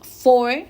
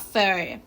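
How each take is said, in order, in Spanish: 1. La palabra se dice en su forma completa. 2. La palabra se reduce a una 'fer' débil. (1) "Solo se pronuncia for" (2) "pasa a fair"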